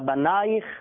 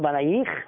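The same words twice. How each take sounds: First: The stress is on the penultimate syllable. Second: The stress is on the final syllable. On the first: The speaker calls it right. "אלא בנייך" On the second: The speaker calls it wrong. "הטעם הוא מלעל, לא מלרע. לא בנייך"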